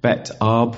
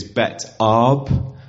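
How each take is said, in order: First: Bet Arb said again at normal pace; Bet Arb repeated. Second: Bet Arb said slowly, each syllable clear. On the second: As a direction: introduce the name Bet Arb deliberately. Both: Shown as a demonstration. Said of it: "coin a new one".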